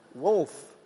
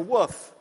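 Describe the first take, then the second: First: The word is said with an L sound. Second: The word is said without an L sound. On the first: The speaker calls it right. "So you guys say wolf?" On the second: The speaker calls it wrong. "I grew up saying it's a woof"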